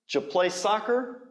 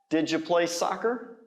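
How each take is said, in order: First: Did and you blend together, said fast. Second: The same.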